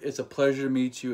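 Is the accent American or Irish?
American. It is spoken in a plain American accent. "Irish out. Tag them in, American in"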